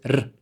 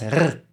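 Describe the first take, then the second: First: The R is made with the tongue. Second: The R is made in the throat. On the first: This is how southern speakers say it. "de la lengua, lingual" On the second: This is how northern speakers say it. "acá, gutural"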